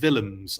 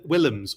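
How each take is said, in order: First: The name starts with a V sound. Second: The name starts with a W sound. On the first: "or a V" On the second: "pronounced with a W"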